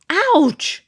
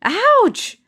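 First: High yelp of pain; sharp ouch. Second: Very high yelled ouch; loud ouch. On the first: Amina yelping at the pin poke, high sharp ouch. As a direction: yelp like a pin just poked you. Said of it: "Amina exclaimed". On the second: Amina yelling ouch at the second poke, very high. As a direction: shriek it even bigger this time. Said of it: "yelled Amina again". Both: Acted.

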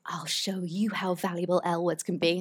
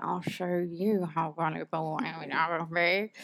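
First: Badly faked American accent, softer delivery; terrible American accent. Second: Drawn-out, softer mock American accent; American accent, inner voice. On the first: Quoting a line from the film, bad American accent. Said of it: "That was my terrible American accent". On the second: Repeating the film line in her head, drawn-out American accent. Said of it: "that's literally what I kind of said in my head".

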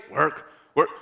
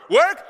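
First: Mock groggy "Work?"; drowsy question. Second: "Work?" jumps much higher and louder, alarmed; mock panic "Work?"; sudden realization. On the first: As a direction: say "Work?" half asleep, not yet grasping. Sleepy friend hears about work. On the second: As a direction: snap awake on "Work?". Friend suddenly remembers work.

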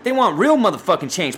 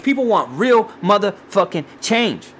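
First: Said in the usual way. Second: Slow, higher, each word of "real motherfucking change" set apart; emphatic repeat. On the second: Real, not acted. Podcaster closing rant, "real motherfucking change" slow and emphatic.

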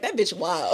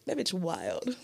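First: Giggling through the words; laughing while quoting. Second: Soft, dry, under the breath; quiet deadpan quote. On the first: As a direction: laugh it out, amused. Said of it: "They'd be like". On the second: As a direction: say it flat and quiet. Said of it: "they'd be like". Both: Retold or imitated.

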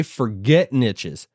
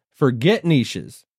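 First: Slow "forget niches", with "niches" as NITCH-iz; nitch pronunciation. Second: Slow "Forget niches", with "niches" as NEESH-iz; neesh pronunciation. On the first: YouTuber dismissing the topic for everyone listening, "niches" said as NITCH-iz. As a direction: say "niches" with short i and tch. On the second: YouTuber repeating it for other speakers, "niches" said as NEESH-iz. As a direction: say "niches" with long ee and sh. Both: Shown as a demonstration. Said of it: "both ways or the other".

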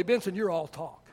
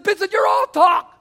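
First: Low, soft retelling of the coach's words; quietly quoted coach. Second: Loud, higher mock coach shout of "all talk"; coach yelling. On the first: Retold or imitated. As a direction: say it softly, just reporting it. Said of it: "my junior high football coach told me". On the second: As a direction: yell it in the player's face. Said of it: "got in my face and says".

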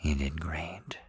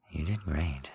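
First: Soft tender whisper, barely voiced. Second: Gentle, low spoken praise, not whispered; soft spoken. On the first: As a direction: breathe it gently, full of praise. Tender whisper after the scene. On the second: Acted. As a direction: say it kindly in a soft voice. Same praise, now softly spoken.

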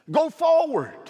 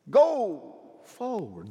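First: High, loud "Go forward" cried out; shouted command. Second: Slow, drawn-out "Go forward" with each word weighted; slow emphatic. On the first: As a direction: call it out at the climax. Repeated climactic command. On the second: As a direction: ease it down and lean on each word. Repeated command, slowed. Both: Acted.

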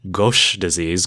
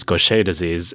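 First: Gauche said as one syllable, GOHSH; mnemonic pronunciation. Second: Gaucher said as goh-SHAY; proper French pronunciation. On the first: Teacher linking the name to embarrassing, Gauche as GOHSH. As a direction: say Gauche with long "oh", ending on "sh". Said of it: "The whole concept of gauche". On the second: Teacher restoring the disease's proper name, Gaucher as goh-SHAY. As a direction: say Gaucher in two syllables, ending "ay". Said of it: "it's gaucher". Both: Shown as a demonstration.

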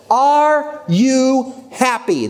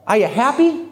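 First: Very slow, high, each word separated; word-by-word question. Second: Higher-pitched, gently probing question; simple question. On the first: Speaker repeating his one question to the audience, slow and emphatic. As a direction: spell out the question one drawn-out word at a time. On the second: Man asking his friend about her boyfriend, simple question. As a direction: ask it simply, rising in pitch. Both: Retold or imitated.

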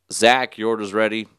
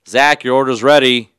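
First: Cashier's raised order call. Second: Much louder, higher cashier shout; insistent order call. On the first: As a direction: call out to the waiting customers, louder. Acts cashier calling out orders. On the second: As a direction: shout it across the room to a missing customer. Cashier calls absent customer louder. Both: Retold or imitated.

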